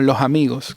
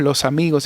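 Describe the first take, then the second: First: The s between vowels is a breathy h. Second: The s between vowels is a clear hiss. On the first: "como una J casi" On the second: "no decimos"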